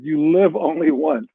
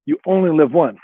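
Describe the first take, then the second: First: Slow, deliberate reading of the book's odd word order; slow quoted line. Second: Said in the usual way. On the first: Shown as a demonstration. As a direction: spell out the quote slowly, word by word. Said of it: "the quote of the book is". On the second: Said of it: "that's a mistake".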